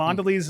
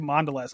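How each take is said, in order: First: Mondelez ending in a long "leez"; alternative pronunciation. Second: Mondelez ending in a short "lez"; alternative pronunciation. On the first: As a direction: say Mondelez as MON-duh-leez. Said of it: "figure out the proper way to pronounce that". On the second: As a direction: say Mondelez as MON-duh-lez. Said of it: "I've heard it both ways". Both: Shown as a demonstration.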